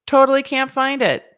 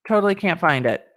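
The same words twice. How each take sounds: First: "Totally" pushed up high and louder with a long T; higher, louder repeat. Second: Said in the usual way. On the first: Shown as a demonstration. Host repeating her complaint, higher and louder. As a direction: sing out "Totally can't find it" higher.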